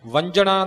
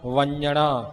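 First: The middle consonant sounds like j. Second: The middle consonant sounds like n. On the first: The speaker calls it wrong. "ਨਾ ਇਹ ਜੱਜਾ ਬਣੇ" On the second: The speaker calls it right. "ਨੰਨਾ ਅੱਖਰ ਲਿਖਿਆ ਹੈ"

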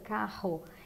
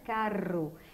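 First: The R is made at the back of the mouth. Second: The R is pronounced in an Italian-influenced way. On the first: This is the common local way of speaking. "nós fazemos com R posterior" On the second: The speaker is from an Italian-influenced neighborhood. "por influência italiana"

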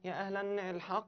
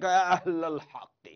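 First: An 'n' sound follows the word 'ahl'. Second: No 'n' sound follows the word 'ahl'. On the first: The speaker calls it wrong. "لا ما بصير" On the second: The speaker calls it right. "هذا مضاف هيك طالع هيك"

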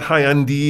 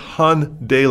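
First: The word's ending does not rhyme with Sunday. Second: The word's ending rhymes with Sunday. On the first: The speaker calls it wrong. "it's not Hyundai" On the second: The speaker calls it right. "it's Hyundai like Sunday in America"

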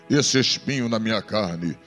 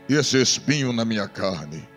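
Both takes have the same delivery.

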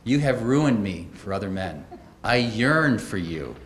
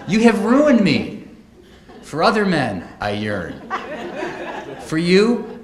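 First: The pause comes after "men". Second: The pause comes after "me".

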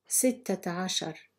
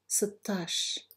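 First: It is said in the full, long form. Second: It is said in a short, contracted form. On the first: This is the formal standard form. "I will read each number in Fusha Arabic" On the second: This is the everyday dialect form. "then say it in Algerian Arabic"

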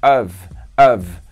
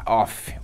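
First: The word ends with a voiced V sound. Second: The word ends with a voiceless F sound. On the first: The speaker calls it right. "E of é com V só" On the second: The speaker calls it wrong. "Nada de falar off"

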